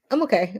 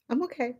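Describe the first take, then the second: First: Said in the usual way. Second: Soft, hushed reassurance through tears; steady yourself quietly; holding back tears. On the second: Real, not acted. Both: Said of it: "I'm trying not to cry".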